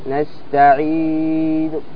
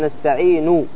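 First: The final n ends with a faint, partial vowel. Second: The final n carries a full u vowel. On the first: The reciter stops but hints at the vowel. "بالروم" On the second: The reciter is continuing without stopping. "هذا عندما تصل أنت تقول نستعين"

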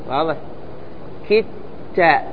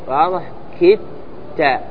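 The two takes are said the same way.

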